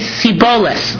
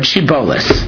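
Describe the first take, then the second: First: The word begins with an 's' sound. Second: The word begins with an 'sh' sound. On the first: "They couldn't pronounce the shin. They only pronounce it as a sin" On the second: "Say the word shibolus"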